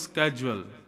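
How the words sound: It starts with a 'sk' sound, American style.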